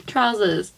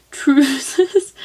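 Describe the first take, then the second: First: Said in the usual way. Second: "Trousers" said as "troozers", high and questioning; "Trousers" as "troozers", rising in amused doubt; variant pronunciation. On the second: Shown as a demonstration. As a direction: say "Trousers" with a long oo in the first syllable. Trying an odd variant pronunciation.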